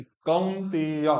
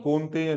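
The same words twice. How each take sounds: First: कौनतेय slow as "kaun-tey-ya"; full au sound. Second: कौनतेय quickly with a plain o, "konteya"; mispronounced. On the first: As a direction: draw out the au and e of कौनतेय. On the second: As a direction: rush कौनतेय with a flattened first vowel. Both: Shown as a demonstration. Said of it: "कौनतेय नहीं".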